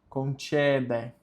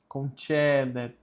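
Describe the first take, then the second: No difference in how they are said.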